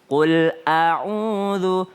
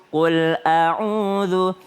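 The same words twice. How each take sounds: The two takes are said the same way.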